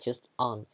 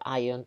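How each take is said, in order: First: The suffix is said as one short syllable. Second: The suffix is said as two syllables, eye-on. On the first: The speaker calls it right. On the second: The speaker calls it wrong. "or ion"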